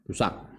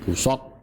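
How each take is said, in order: First: The middle consonant is a plain, light s. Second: The middle consonant is a heavy, emphatic s. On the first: This form exists but is not well known. "Busak juga ada tapi tidak masyhur" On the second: This form is the more widely used one. "dengan huruf shad"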